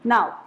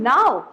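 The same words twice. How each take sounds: First: The pitch falls on the word. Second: The pitch rises on the word. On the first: It is a plain statement. "falling intonations" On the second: It is asked as a question. "Question mark में आप बोलोगे"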